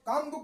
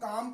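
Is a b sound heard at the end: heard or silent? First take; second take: heard; silent. First: A b sound is heard at the end. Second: No b sound is heard at the end. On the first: The speaker calls it wrong. "M के बाद बी silent होगा" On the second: The speaker calls it right. "काम पढ़ा जाएगा"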